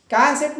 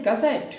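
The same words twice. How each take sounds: First: cassette with कै high and loud; wrong first-syllable stress. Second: cassette with सेट stressed; short कै, lean on सेट in cassette; stress on last syllable. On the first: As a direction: punch कै at the start of cassette. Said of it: "कै पर न जोर दे करके". (Cassette में कै पर ज़ोर) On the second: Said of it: "सेट पर देंगे". (कैसेट में सेट पर ज़ोर) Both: Shown as a demonstration.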